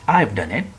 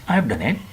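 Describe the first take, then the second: Both takes have the same delivery.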